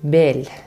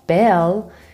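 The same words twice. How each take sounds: First: The L is made far forward, Persian style. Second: The L sounds like a normal English L.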